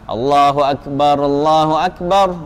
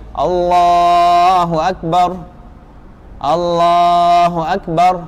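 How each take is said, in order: First: Both phrases are joined in one breath. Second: Each phrase is cut off with a break.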